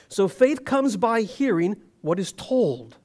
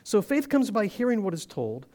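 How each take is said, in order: First: It is read at a slower pace. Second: It is read at a normal, quicker pace.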